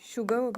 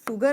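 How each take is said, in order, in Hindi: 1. यह शब्द 'sh' ध्वनि से शुरू होता है। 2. यह शब्द सादी 's' ध्वनि से शुरू होता है। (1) "हम इसे शुगर बोलेंगे" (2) "इसे हम शुगर नहीं बोलेंगे"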